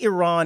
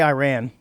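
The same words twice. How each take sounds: First: It is said in a refined, broadcaster-like way. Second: It is said in a plain, everyday way. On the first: "snootier way of saying it" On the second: "but I'm going to say Iran"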